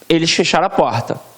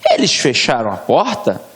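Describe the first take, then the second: First: It is said with a plain, falling statement tune. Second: It is said with a questioning tune. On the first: "com o ponto" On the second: "uma indagação"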